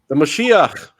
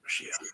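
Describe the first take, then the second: First: It is spoken aloud, not whispered. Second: It is whispered softly.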